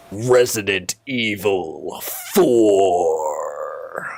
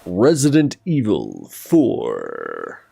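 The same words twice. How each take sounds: First: Slow, strained announcer voice cracking; thin reedy voice. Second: Announcer voice. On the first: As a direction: stretch the title out in a weak thin voice. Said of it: "My voice is so weak today". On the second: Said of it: "just let me do my voices". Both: Shown as a demonstration.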